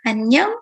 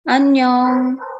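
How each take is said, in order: First: It has the intonation of a greeting. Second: It has the intonation of a farewell.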